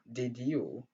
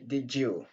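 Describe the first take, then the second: First: The d and y sounds stay separate. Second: The d and y merge into a j sound. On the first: The speaker calls it wrong. "Au lieu de dire did you" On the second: The speaker calls it right. "on dit did you"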